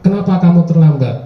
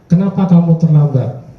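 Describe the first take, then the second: First: The question is asked in a harsh tone. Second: The question is asked in a gentle tone. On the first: The student is being punished. The speaker calls it wrong. "Dengan biasanya dengan nada yang agak keras" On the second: The student is invited to explain. The speaker calls it right. "ketika berada di posisi manajer yang kita harapkan"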